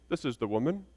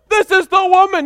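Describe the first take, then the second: First: It is said flatly, matter-of-fact. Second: It is said excitedly, with exclamation.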